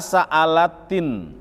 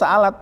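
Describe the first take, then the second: First: The word ends with an added linking i vowel. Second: The word ends on a bare t sound. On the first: It is joined to the next word. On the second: The word is read on its own.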